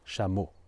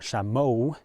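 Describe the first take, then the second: First: The word is short with a flat pitch. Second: The word is drawn out with a moving pitch. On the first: The speaker calls it right. "it's chameau" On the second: The speaker calls it wrong. "It's not chameau"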